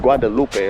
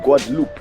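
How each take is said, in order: First: The name ends in a 'loo-pay' sound. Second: The name ends in a short 'loop' sound. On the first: The speaker calls it wrong. "don't be calling this place Guadalupe" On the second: The speaker calls it right. "that's how you say it"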